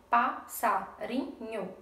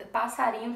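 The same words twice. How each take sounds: First: "passarinho" very slowly as pas-sa-ri-nho; syllable by syllable. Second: Said in the usual way. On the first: Shown as a demonstration. Teacher reading the divided word, "passarinho" syllable by syllable. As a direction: break passarinho into four separated syllables. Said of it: "a palavra já dividida". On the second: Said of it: "passarinho tem quatro sílabas".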